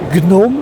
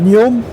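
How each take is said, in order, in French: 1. Le nom se prononce à l'allemande. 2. Le nom se prononce à la française. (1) "prononciation allemande" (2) "prononciation française"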